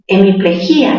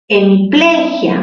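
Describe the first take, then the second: First: The stress falls on the syllable 'gí'. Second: The stress falls on the syllable 'ple'. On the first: "la cerrada con mayor fuerza de voz" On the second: "En ple"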